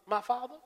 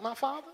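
First: Real polite. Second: Soft, meek "My father?" of a servant; bow your voice like a humble servant; real polite. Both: Acted. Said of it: "real polite".

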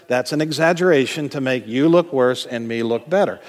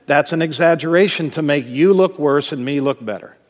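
Both takes have the same delivery.

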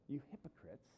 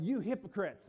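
First: Soft, subdued reproach; rebuke turned inward. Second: Raised, higher voice in sharp rebuke; worked-up rebuke. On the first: Jesus to us as the audience, quiet reproach. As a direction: say the accusation quietly, without railing. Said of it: "we're the audience that Jesus". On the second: Jesus to the Pharisees while disciples look on, worked-up rebuke. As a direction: rail at them, loud and high. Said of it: "maybe even yelling when he said". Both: Acted.

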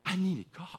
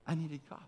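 First: Said in the usual way. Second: Softer, settled repeat of "I needed God."; soft echo. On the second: Real, not acted. Echoing his conclusion to the listeners, softer. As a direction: let "I needed God." fall away quietly.

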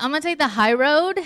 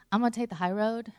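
First: Louder, rising and determined; a louder, decided take on the high road; resolute declaration. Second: Said in the usual way. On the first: Retold or imitated. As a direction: announce the choice with resolve. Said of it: "But I was like". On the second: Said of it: "I was like".

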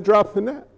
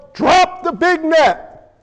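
First: Said in the usual way. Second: Slow, high, punched-out order; acted boss's shouted command; boss man yelling. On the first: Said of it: "The boss said". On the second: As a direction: yell each word to the crew. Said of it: "boss man yells".

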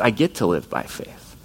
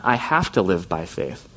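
First: Grateful get; stress on get. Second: Heavy have, a burden; stress on have. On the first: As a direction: get lifted and stressed as a gift. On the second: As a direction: have leaned on, slow and low, as a duty. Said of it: "it's not". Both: Shown as a demonstration.

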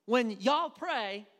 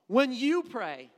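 First: "y'all" drawn out slowly as the right word; stress on y'all. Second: "you" stressed, louder and slow. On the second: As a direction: press on "you" as the wrong reading. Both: Shown as a demonstration. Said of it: "not you".

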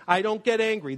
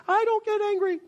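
First: Said in the usual way. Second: Much higher, squeaky and defensive. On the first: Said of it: "They never say it that way". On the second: Shown as a demonstration. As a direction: squeak it out like you're denying it. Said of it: "always a high, squeaky, defensive voice".

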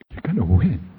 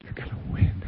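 First: "You're gonna win" said out loud with weight on "gonna"; firm promise. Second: Unvoiced whisper of the promise. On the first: Retold or imitated. Coach firmly assuring his players in the huddle that they will win. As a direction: lean on "gonna" with certainty. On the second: Coach whispering to his beaten players in the huddle. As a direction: breathe it to them like a secret. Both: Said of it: "the coach looks at every single one of the players and says".

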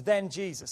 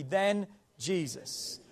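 First: Said in the usual way. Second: "Then Jesus" drawn out slowly, stress on "Then"; slow emphatic Then Jesus. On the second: Shown as a demonstration. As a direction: lean on "Then", let "Jesus" follow slowly. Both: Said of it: "Say that with me".

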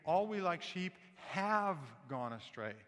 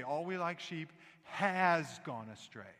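First: Slow line with "have" drawn out and punched; corrective stress on HAVE. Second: Slow line with "has" stretched out and punched; emphasis on HAS. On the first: Mother correcting her son's Bible verse, "have" firmly stressed. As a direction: lean hard and long on "have". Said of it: "Kathy would try to correct him". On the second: Little boy echoing his mother's correction, "has" proudly overstressed. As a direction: copy the emphasis, landing long on "has". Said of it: "he could get the emphasis on the word". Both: Retold or imitated.

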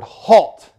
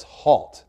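First: Barked military command, loud and high; manly Marine voice. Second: More manly Marine voice. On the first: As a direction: snap it like a drill sergeant. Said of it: "in their most manly Marine voice". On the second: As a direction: plant your feet and bark it. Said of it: "even in his more manly voice". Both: Retold or imitated.

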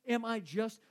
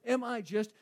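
Both takes have the same delivery.

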